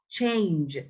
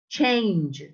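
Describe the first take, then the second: The two takes are said the same way.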